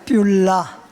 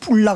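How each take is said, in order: First: The word begins with a soft 'byu' sound. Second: The word begins with a tense 'ppu' sound. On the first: The speaker calls it right. "원어 발음대로 해서 뷸라라고" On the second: The speaker calls it wrong. "그럼 뿔라 그러면 안 돼요"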